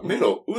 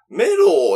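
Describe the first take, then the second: First: The word ends in an o-u glide. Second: The word ends in a long held o. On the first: The speaker calls it right. "メロウなんだよね" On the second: The speaker calls it wrong. "メローだと思ったら"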